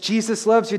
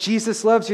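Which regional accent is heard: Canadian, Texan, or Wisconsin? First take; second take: Wisconsin; Wisconsin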